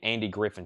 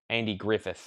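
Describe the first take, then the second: First: The name ends with an n sound. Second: The name ends with a th sound. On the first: This is how the speaker always said it. "I've grew up saying my whole life Andy Griffin Show" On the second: This is the form the speaker never used. "that Griffith really messes with me"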